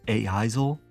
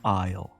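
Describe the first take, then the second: First: Every silent letter is sounded out. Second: The silent letters stay silent. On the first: "Gnomi is a gnome who pronounces every silent letter" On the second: "like the aisle in a grocery store"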